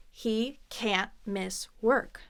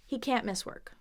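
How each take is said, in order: First: Very slow, word by word, rising end; slow demonstration. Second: Said in the usual way. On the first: Shown as a demonstration. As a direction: pause after each word for learners. Teacher demonstrates slowly.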